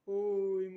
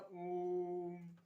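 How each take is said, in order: First: ओम sung out loud with the o held long; ओम called out loud and held long. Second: ओम stretched long and slow, the o held; ओम held long like a chant; drawn-out om. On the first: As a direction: boom out ओम and hold the o. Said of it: "उसमें बड़ी देर तक". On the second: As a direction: hold the ओम slowly like a chant. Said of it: "बोलते हैं ऐसे ओम करते हैं". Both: Shown as a demonstration.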